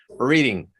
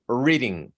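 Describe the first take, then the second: Both takes have the same delivery.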